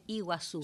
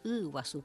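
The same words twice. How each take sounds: First: The first vowel sounds like a plain Spanish vowel. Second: The first vowel sounds guttural, made deep in the throat. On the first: This is the common everyday pronunciation. The speaker calls it wrong. "generalmente se dice Iguazú" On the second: This is the original Guaraní pronunciation. The speaker calls it right. "es Iguazú, que es aguas grandes"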